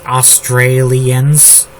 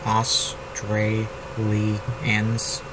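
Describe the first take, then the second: First: Australians dragged out slowly, a bit louder; slow counting of Australians; syllables drawn out. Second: Australians dragged very slowly and softly, each syllable apart; very slow soft syllable count on Australians; syllables drawn out. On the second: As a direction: count Au-stra-li-ans under your breath. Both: Shown as a demonstration. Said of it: "four syllables".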